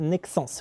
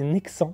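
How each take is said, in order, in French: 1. Le S final de Nexence se prononce. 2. Le S final de Nexence est muet. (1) "Le S à la fin se prononce" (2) "J'ai toujours cru qu'on disait Nexence"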